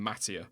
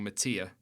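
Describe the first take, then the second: First: Mattia said MAT-ee-a, stress up front; less comfortable pronunciation of Mattia. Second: Mattia said ma-TEE-a, stress in the middle; preferred pronunciation of Mattia. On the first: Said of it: "saying Mattia than Mattia". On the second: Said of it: "I feel more comfortable saying". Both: Shown as a demonstration.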